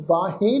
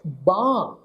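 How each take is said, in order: First: ਬਾਹੇ split into baa-he; wrong sounded ending. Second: ਬਾਂਹ as a single long falling syllable; silent ਸਿਹਾਰੀ. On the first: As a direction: sound a clear 'he' after the long vowel in ਬਾਹੇ. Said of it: "ਇਹਨੂੰ ਬਾਹੇ ਨਹੀਂ pronounce ਕਰਨਾ". ('ਬਾਹੇ', ਅੰਤ ਵਿੱਚ 'ਹੇ' ਨਾਲ) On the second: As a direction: say ਬਾਂਹ alone, nasal aa and no 'he'. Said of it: "ਇਹਦਾ ਉਚਾਰਨ ਕੀ ਕਰਾਂਗੇ ਜੀ". ('ਬਾਂਹ', ਲੰਮਾ, 'ਹੇ' ਤੋਂ ਬਿਨਾਂ) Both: Shown as a demonstration.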